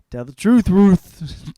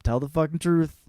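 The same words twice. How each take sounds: First: "Tell the truth, Ruth" shouted higher and much louder; loud rhyming punchline. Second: Said in the usual way. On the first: Shown as a demonstration.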